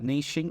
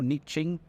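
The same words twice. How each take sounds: First: It is said in the non-American pronunciation. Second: It is said in the American pronunciation.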